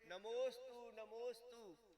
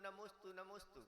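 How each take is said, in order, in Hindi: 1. यह बहुत अधिक भक्ति दिखाते हुए कहा गया है। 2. यह बेपरवाही से, बिना आदर के कहा गया है। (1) "विनय का अतिरेक कर देते हैं" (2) "अच्छे से नमोस्तु भी नहीं बोलते"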